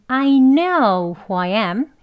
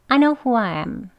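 First: The opening I know is stressed, later words weak. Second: Nothing is stressed and every word is weak. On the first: "앞에만 strong 강조합니다" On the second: "강조하지 않고요 … 쭉 이어서 다 weak 발음으로"

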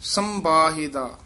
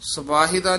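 First: A firm nasal sound follows the first s. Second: There is no nasal sound after the first s. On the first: The speaker calls it right. "ਸਸੇ ਉੱਤੇ ਟਿੱਪੀ ਹੈ, ਥੋੜਾ ਜਿਹਾ ਕਸ ਕੇ ਉਚਾਰਨ ਕਰਨਾ ਹੈ" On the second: The speaker calls it wrong. "ਸਵਾਹਿਦਾ ਨਹੀਂ ਕਹਿਣਾ"

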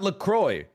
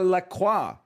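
First: The name is said with an English pronunciation. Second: The name is said with a French pronunciation. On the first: The speaker calls it wrong. "not lacroix" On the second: The speaker calls it right. "If you wanted the French pronunciation, you should accept that you are lacroix"

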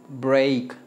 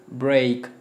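No difference in how they are said.

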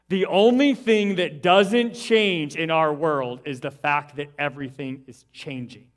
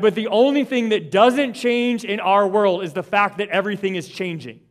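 First: It is said a little more slowly. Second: It is said at normal speed.

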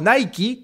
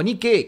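First: The final E is pronounced like an I. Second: It is pronounced close to the Greek original. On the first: "como le dicen los americanos, que ponen la E como una I" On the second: "una pronunciación mucho más cercana al griego"

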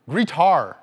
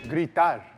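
First: It is said with an English accent. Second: It is said with a Spanish accent.

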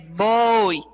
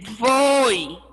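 First: The word begins with a b sound. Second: The word begins with a v sound. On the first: The speaker calls it right. "é boi" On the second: The speaker calls it wrong. "Ao invés de ser voi"

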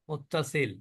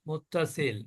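No difference in how they are said.

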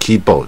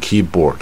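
First: The r sound is weak, barely curled. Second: The r sound is strongly curled. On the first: The speaker calls it wrong. "我们这个字不要念keyboard" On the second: The speaker calls it right. "念keyboard 啊，卷舌一点啊"

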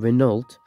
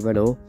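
First: The name has an American pronunciation. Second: The name has a British pronunciation. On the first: The speaker calls it wrong. "as the Americans love to call them" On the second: The speaker calls it right. "as we like to call them here"

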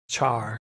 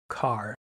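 First: The word starts with a ch sound. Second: The word starts with a k sound. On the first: The speaker calls it wrong. "I still say char instead of car" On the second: The speaker calls it right. "it has to be car because it's character"

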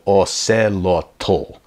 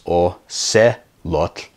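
First: The final tl becomes an extra syllable tull. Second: The final tl is one sound, three syllables. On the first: The speaker calls it wrong. "you create an additional syllable" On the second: The speaker calls it right. "which is three syllables"

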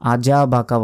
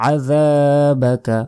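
First: The second consonant sounds like a plain z. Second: The second consonant is a th-like sound. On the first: The speaker calls it wrong. "আযাবাকা বলা যাবে না" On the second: The speaker calls it right. "জাল জিহ্বা বের করে উচ্চারণ করতে হবে"

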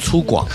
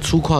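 First: The second syllable sounds like guang. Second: The second syllable sounds like kuang. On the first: This is how people now commonly read it. The speaker calls it wrong. "现在好像不管大陆在台湾都念成粗犷" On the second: This is the reading learned in childhood. The speaker calls it right. "我从小念是粗犷"

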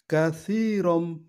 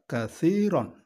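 First: The ending n merges into an m sound. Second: The word ends with a clear n sound. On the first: The speaker calls it right. "Kathirom min" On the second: The speaker calls it wrong. "Tidak dibaca kathiron"

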